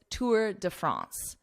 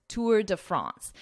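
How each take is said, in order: The two takes are said the same way.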